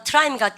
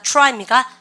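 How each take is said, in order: First: "트라이입니까" with a plain "teu" before the r; Koreanized TR. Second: "트라이입니까" starting with "choo-rai"; English TR sound. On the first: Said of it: "T하고 R이 있으면". ("트라이입니까"의 '트'를 글자대로) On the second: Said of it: "티알은 추추추". ("트라이입니까"를 '추라이'로 발음) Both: Shown as a demonstration.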